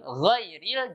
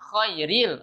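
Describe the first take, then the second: First: The word begins with a gargled gh sound. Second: The word begins with a plain k sound. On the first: The speaker calls it right. "huruf ghin jadi kaf" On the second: The speaker calls it wrong. "Biasanya orang Indonesia membaca khairil"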